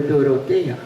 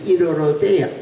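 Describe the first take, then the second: First: The name begins with a clear D sound. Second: The D is replaced by an R-like sound.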